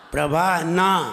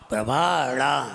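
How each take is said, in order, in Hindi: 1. अंतिम अक्षर सादे न से शुरू होता है। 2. अंतिम अक्षर मूर्धन्य फ़्लैप से शुरू होता है। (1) "ना लगा होता तो क्या पढ़ते? प्रभा ना" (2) "तुम ड़ा बोल रहे हो"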